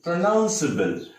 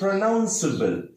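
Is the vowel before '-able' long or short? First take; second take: short; short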